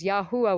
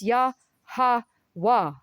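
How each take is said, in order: First: The second syllable has an oo vowel. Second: The second syllable has an ah vowel. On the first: The speaker calls it wrong. "with a U" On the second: The speaker calls it right. "It's Yah-ha-wah"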